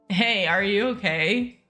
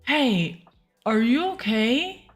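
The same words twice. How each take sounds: First: The voice is pitched deeper. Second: The voice is pitched higher. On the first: The speaker calls it right. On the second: The speaker calls it wrong.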